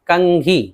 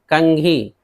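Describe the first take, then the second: The two takes are said the same way.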